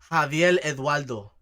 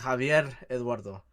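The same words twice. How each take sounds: First: The R sounds like an L, Puerto Rican style. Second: The R is strongly rolled.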